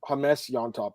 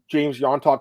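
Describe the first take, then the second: First: The first name starts with an H sound. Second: The first name starts with a J sound. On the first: The speaker calls it right. "the pronunciation is Hamas Yontop" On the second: The speaker calls it wrong. "My bad, guys"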